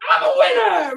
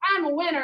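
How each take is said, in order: First: It is said loudly, with excited energy. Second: It is said flatly, with little energy. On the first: The speaker calls it right. "even with that really excited voice" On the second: The speaker calls it wrong. "I want not just I'm a winner"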